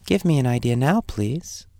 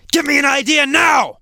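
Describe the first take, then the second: First: Gentle tone. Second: High, loud demanding shout; harsh tone. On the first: Teacher shows the opposite of harsh, gentle request. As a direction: ask gently, as a kind favor. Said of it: "That's a very gentle tone". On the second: Teacher demonstrates harsh self-talk for students, harsh shout. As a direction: shout it roughly like an impatient order. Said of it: "I'm speaking in a harsh way". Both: Shown as a demonstration.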